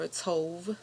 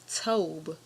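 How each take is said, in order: First: The word ends with a v sound. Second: The word ends with a b sound. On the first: This is how some other people say it. "Some people pronounce it pronounce it tov" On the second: This is the older rendering. "I prefer tob. ... more ancient"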